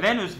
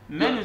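First: The word begins with a V sound. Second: The word begins with an M sound. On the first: The speaker calls it right. "Venüs, Venüs" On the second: The speaker calls it wrong. "Menüs değil"

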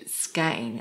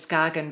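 First: It is said the way Danes say it. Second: It is said in the common, anglicized way. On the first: This is how local Danish speakers say the name. "I think that's the Danish pronunciation" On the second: This is how most outsiders say the name. "most people know it as Skagen"

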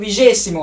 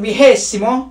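First: The word is pronounced as in Portuguese. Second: The word is pronounced as in Spanish. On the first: "Portekizce Vigesimo arkadaşlar" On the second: "İspanyolca Vigesimo"

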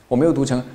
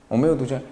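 No difference in how they are said.

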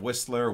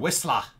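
First: The ending is said with an 'er' sound. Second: The ending is said with an 'ah' sound. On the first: "Instead of" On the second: "I feel like Brits would say"

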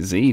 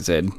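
First: It is said the American way, zee. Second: It is said the Australian way, zed.

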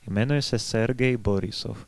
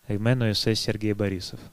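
First: The name is said with Czech pronunciation. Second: The name is said with Russian pronunciation. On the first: Listeners hear and write it correctly. The speaker calls it right. "как это по нормам чешской фонетики" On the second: Listeners may not catch or spell it correctly. The speaker calls it wrong. "я не буду говорить"

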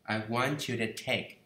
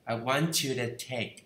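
First: 'To' is reduced to a weak 'the'. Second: The same.

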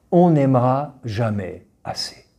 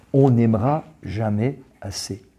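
Both takes have the same delivery.

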